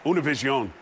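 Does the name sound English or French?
French. The name is said with a French-like sound.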